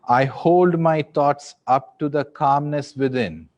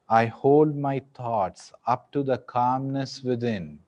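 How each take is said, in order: First: It is spoken in a loud voice. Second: It is spoken in a softer voice. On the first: "in a loud voice" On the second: "in a softer voice"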